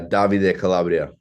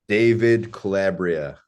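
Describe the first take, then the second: First: The name is said with a foreign-sounding pronunciation. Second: The name is said in a plain English way. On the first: "Just the way you say it. That, that's something that makes us laugh" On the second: "If you said it like a normal person, it'd just be fine"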